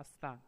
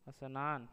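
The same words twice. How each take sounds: First: स्नान said as "astaan"; स्नान with t in place of n; regional variant. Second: स्नान said as "asnaan"; स्नान with an extra opening vowel; regional mispronunciation. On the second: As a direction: put an "a" before स्नान. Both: Shown as a demonstration. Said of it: "अपने क्षेत्र में प्रचलित प्रयोग".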